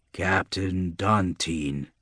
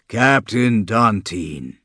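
First: Slow, soft and low, looming out of fog; low monster voice. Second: Slow and louder, calling a second time; louder monster voice. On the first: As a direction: call his name slowly from the mist. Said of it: "says the pillar". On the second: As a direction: draw the name out with more force. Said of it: "the monster says again". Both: A narrator's reading.

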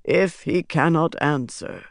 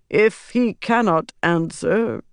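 First: Said in the usual way. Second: "answer" left hanging, high and slow; trailing off. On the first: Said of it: "Pytar said". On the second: A narrator's reading. Pytar breaks off the prophecy, trailing off on "answer". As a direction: draw out "If he cannot answer" and leave it unfinished. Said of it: "He trailed off, falling silent".

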